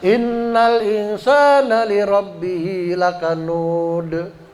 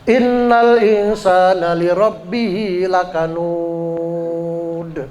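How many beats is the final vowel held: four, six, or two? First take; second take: two; six. First: The final long vowel is held two beats. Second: The final long vowel is held six beats. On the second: "Enam harokat"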